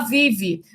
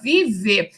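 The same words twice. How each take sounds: First: The final vowel sounds like I. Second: The final vowel sounds like E. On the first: "pronunciam o E como I" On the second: "ao invés de se pronunciar vive"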